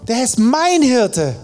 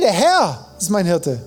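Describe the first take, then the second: First: The stress is on mein. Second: The stress is on Herr.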